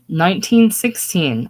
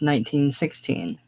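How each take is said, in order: First: It is said louder and more clearly. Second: It is mumbled quietly and indistinctly. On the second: "The old lady mumbling"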